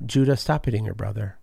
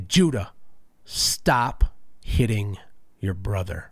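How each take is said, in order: First: The voice is calm and even. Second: The voice is intense and forceful. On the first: "that means a certain thing" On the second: "that kind of like amplifies things"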